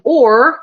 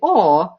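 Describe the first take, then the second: First: The final r sound is pronounced. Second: The final r sound is dropped. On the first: "like I'm saying now" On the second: "they'll say aw"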